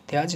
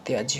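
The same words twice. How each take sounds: First: त्याज said with a bare final ज, no trailing sound; त्याज ending flat on ज; wrong form. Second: त्याज्य said with a light ज्य glide at the end; correct form. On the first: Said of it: "त्याज नहीं होता". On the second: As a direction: demo the right त्याज्य. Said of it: "त्याज्य होता है". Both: Shown as a demonstration.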